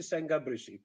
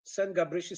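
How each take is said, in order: First: "Sen Gabrysi" said as "seng Gabrysi"; "Sen Gabrysi" run together, ng before G; assimilated n. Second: Said in the usual way. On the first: Shown as a demonstration. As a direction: end "Sen" on an ng. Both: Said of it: "it's the same".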